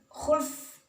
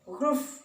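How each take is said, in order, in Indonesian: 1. Kata ini diawali dengan bunyi kh. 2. Kata ini diawali dengan bunyi gh. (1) "Bukan khulf" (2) "gulf ya"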